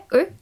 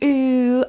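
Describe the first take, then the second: First: The u vowel is cut very short. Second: The u vowel is held very long. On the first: "Není to krátké u" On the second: "není mega dlouhé, není tam u"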